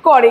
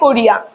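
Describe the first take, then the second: First: Two syllables, ending in e with no i. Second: Three syllables, with the i sound after the r. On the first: The two vowels have merged into a new form. "মিশে গিয়ে আবার নতুন একটা শব্দ তৈরি হলো" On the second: This is the original full form. "প্রথমে বলে লোকজন বলে কোরিয়া"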